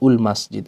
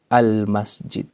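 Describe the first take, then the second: First: The phrase begins with a u vowel. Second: The phrase begins with an a vowel. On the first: The speaker calls it wrong. "bukan ul masjid" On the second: The speaker calls it right. "hamzatul wasl dibaca dengan harokat fathah. Contohnya al al masjid"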